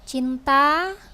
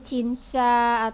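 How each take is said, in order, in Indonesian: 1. Konsonan tengahnya adalah bunyi t yang jelas. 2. Konsonan tengahnya berubah menjadi bunyi ch. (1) "kita harus mengucapkan kata-kata itu dengan jelas" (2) "jangan e, misalnya cinta menjadi cinca"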